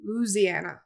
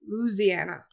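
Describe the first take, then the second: First: It is pronounced the way locals say it. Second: The same.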